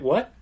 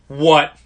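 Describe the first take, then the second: First: It is said calmly and quietly. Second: It is said loudly and insistently.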